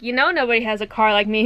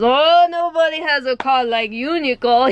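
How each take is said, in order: First: Said in the usual way. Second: Imitated Jamaican accent. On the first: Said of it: "I would, like". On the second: Manager teasing employee about her car, mock Jamaican accent. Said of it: "He goes".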